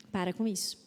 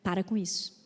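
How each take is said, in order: Both takes have the same delivery.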